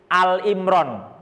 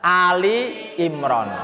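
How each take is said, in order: First: The first part is said as short 'Al'. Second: The first part is said as 'Ali'. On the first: The speaker calls it wrong. "banyak yang salah baca menjadi Al-Imran" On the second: The speaker calls it right. "yang benar adalah Ali Imran"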